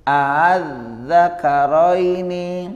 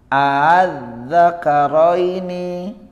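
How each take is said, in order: No difference in how they are said.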